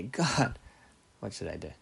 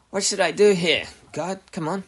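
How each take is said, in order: First: Humble plea. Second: High, loud exasperated plea; impatient demand. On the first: Believer turning to God for guidance, humble plea. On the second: Believer badgering God for guidance, impatient demand. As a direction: demand an answer, pushing pitch and volume up. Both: Acted. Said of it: "There's a big difference, right?".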